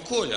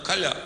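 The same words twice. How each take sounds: First: The stress is on the first syllable. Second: The stress is on the last syllable. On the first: "Он Коля" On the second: "она Коля ... правильно ударение Коля ... проверочное слово ... Колян"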